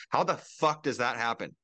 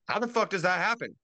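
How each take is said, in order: First: Said in the usual way. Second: Outraged repeat. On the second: Real, not acted. Ranting podcaster repeats his question, outraged disbelief. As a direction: hit "fuck" hard, higher than the first time.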